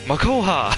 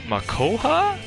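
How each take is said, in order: First: The name is said firmly, like an exclamation. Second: The name is said hesitantly, rising like a question. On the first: The skill is used with confidence. "Then I could be like" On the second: The skill is uncertain or unknown. "instead of saying, like"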